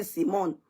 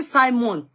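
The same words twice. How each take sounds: First: "Simon" with first syllable like "see"; SEE-mon pronunciation. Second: "Simon" with first syllable like "sigh"; SY-mon pronunciation. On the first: Host questions the viewer's correction, "Simon" as SEE-mon. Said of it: "comes again to say it's Simon". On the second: Host rejects the correction, "Simon" as SY-mon. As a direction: say "Simon" as SY-mon, pitched higher. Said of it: "I say Simon". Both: Shown as a demonstration.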